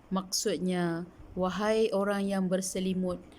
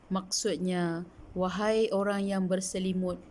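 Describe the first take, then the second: No difference in how they are said.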